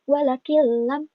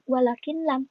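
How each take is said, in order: First: The n merges into a doubled l sound. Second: The n sound is pronounced before the l. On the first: The speaker calls it right. "tapi walakil lam" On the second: The speaker calls it wrong. "Jadi bukan walakin lam"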